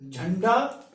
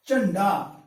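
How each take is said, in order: First: Said in the usual way. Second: चंडा for झंडा, starting on unvoiced ch; चंडा with a hard unaspirated ch; Dogri-style jhanda. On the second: Shown as a demonstration. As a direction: swap the breathy jh for ch: चंडा. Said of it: "हम जब बोलते हैं".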